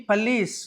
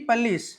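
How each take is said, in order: No difference in how they are said.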